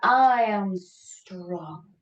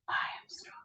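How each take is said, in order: First: It is said a little louder. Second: It is said quietly, almost whispered.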